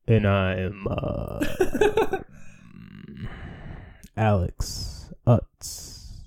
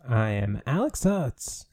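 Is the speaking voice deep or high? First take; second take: deep; high. First: The voice is low, deep and creaky. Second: The voice is high and cracks upward. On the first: "Give us like your deep, manly Alex Oates" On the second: "I feel like my voice cracked"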